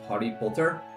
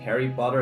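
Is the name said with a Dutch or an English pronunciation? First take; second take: Dutch; English. First: The name is said with a Dutch pronunciation. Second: The name is said with an English pronunciation. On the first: "you pronounce it slightly differently" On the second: "Instead of it being Harry Potter"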